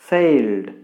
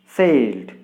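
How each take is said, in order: The two takes are said the same way.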